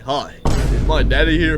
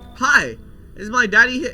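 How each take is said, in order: First: It is said in a deep grown-man voice. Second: It is read in a plain voice.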